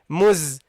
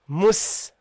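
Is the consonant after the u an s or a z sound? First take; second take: z; s. First: The consonant after the vowel is a buzzing z. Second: The consonant after the vowel is a hissing s. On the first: The speaker calls it wrong. "Don't say muz. Not zai" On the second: The speaker calls it right. "Mus and a proper scene"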